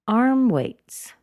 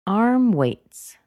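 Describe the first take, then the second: No difference in how they are said.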